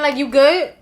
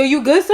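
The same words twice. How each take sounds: First: Eyebrow-raised "you good?", rising at the end; a sceptical check-in; side-eye you good; skeptical you good. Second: Slight push on "son?", rising; a swaggering Brooklyn check; challenging you good, son; street you good son. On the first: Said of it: "with the eyebrow up". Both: Shown as a demonstration.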